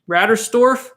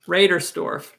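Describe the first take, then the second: First: The name begins with the sound 'Ratter'. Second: The name begins with the sound 'Raider'. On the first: The speaker calls it wrong. "I said it wrong" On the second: The speaker calls it right. "I'll try again"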